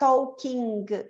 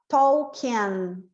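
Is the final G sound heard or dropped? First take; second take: heard; dropped. First: The word ends with a G sound. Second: The word ends on an N sound. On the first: The speaker calls it wrong. "Eu não vou falar talking" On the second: The speaker calls it right. "G não existe. Eu termino no N"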